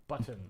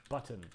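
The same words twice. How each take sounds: Both takes have the same delivery.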